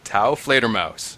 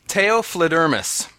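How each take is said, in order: First: The name ends with a 'mouse' sound. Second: The name ends with a 'mis' sound. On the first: The speaker calls it right. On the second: The speaker calls it wrong.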